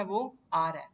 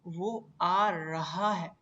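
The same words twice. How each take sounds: First: "आ रहा है" merged into aa-ra-e, louder; everyday contracted form. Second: "वो आ रहा है" slow and louder, every syllable separate; full careful form. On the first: Teacher showing what we actually say, "रहा है" contracted. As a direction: run "रहा है" together as one quick slur. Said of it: "हम क्या कहते हैं?". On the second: Teacher showing the class the real sentence, "रहा है" fully articulated. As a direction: spell out "रहा है" fully, stretched and deliberate. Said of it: "असल sentence क्या है?". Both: Shown as a demonstration.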